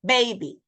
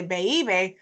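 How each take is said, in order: First: Put-on baby as two smooth syllables, "BAY-bee"; joined diphthong. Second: Put-on baby broken into "ba-ee-bee"; wrong split vowels. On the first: Teacher showing how we say it, joined diphthong. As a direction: say baby with one gliding first vowel. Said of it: "we say baby". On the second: Teacher showing what we don't say, split vowels. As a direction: say baby with the diphthong pulled apart. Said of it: "we don't say baby". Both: Shown as a demonstration.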